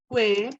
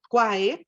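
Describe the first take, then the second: First: It uses the non-classical Latin pronunciation. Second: It uses the classical Latin pronunciation. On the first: The speaker calls it wrong. "a veces me equivoco con la pronunciación clásica" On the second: The speaker calls it right. "la pronunciación clásica que debo hacer"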